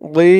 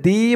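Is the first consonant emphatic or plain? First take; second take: emphatic; plain. First: A heavy d with a rounded, full mouth starts it. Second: A plain, light d sound starts the syllable. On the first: The speaker calls it right. "বলতে হবে দি মুখটা একটু গোল ভরপুর হয়ে যাবে" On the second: The speaker calls it wrong. "একেবারে দি বলা যাবে না দি বললে কিন্তু এই দোয়াদের জায়গায় দালের উচ্চারণ হয়ে যাবে"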